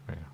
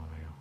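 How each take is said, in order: Both takes have the same delivery.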